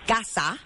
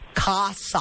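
First: The vowels are short and crisp, Spanish-style. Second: The vowels are drawn out, American-style.

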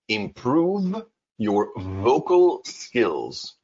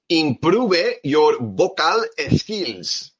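First: It is said with a natural English accent. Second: It is said with a strong Spanish accent. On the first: The speaker calls it right. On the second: The speaker calls it wrong.

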